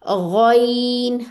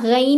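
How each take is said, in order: First: The letter name is said heavy and thick. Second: The letter name is said light and thin. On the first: The speaker calls it right. "बल्कि ये मोटा है" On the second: The speaker calls it wrong. "अब ये ना गैन नहीं कहना आप लोगों ने"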